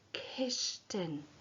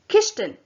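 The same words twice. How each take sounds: First: The word is said quietly. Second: The word is said quickly. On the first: "Now say it Gacuan, quietly" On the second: "And now say it quickly. Gatapa"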